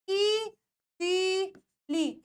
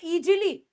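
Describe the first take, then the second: First: ईजीली very slowly, "eee... zeee... leee"; long sounds. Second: ईजीली with a hard J, "ee-jee-lee"; common mispronunciation. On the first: Teacher models the correct ईजीली, three long separate syllables. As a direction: stretch each syllable of ईजीली, Z not J. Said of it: "इसमें सब कुछ बड़ा है". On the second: Teacher mimics students' mistake, ईजीली said "ee-jee-lee". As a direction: put a "j" sound in ईजीली. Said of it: "एस को हमेशा जी पढ़ लेते हैं". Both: Shown as a demonstration.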